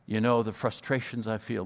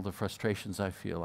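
First: Said in the usual way. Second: Soft echo. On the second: Retold or imitated. Fred echoes, softer.

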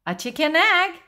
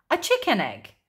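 First: Higher-pitched, surprised echo; puzzled question. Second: "chicken egg" stated with a falling end; matter-of-fact statement. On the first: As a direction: repeat it back in disbelief. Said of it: "asked Jessica". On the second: Marilyn states it as a known fact. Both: A narrator's reading.

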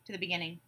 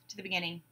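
No difference in how they are said.

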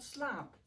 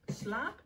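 First: Slaap with a settled fall; falling tune. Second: Slaap with a questioning rise; rising tune. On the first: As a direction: let Slaap drop down and rest. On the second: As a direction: lift the end of Slaap upward. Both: Shown as a demonstration. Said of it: "Het heet".

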